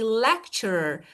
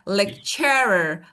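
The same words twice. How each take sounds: First: The stress is on the first syllable. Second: The stress is on the second syllable. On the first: "I say lecturer" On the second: "If I move it to the second part, it would be like lecturer"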